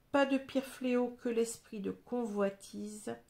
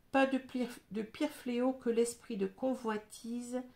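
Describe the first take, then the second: Both takes have the same delivery.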